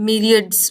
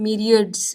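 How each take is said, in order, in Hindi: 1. पहला अक्षर 'mee' जैसा लगता है। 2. पहला अक्षर 'mee' जैसा लगता है।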